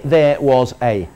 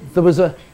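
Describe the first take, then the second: First: The word 'there' is said strongly and fully. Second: The word 'there' is said weakly and reduced. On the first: The speaker calls it wrong. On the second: The speaker calls it right.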